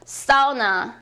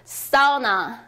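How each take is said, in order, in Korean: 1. 강세는 첫 번째 음절에 있어요. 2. 강세는 첫 번째 음절에 있어요.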